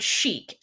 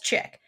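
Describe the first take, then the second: First: The word is said the standard way. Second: The word is said like 'chick'. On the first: The speaker calls it right. "the word chic" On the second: The speaker calls it wrong. "mispronouncing the word chic as chick"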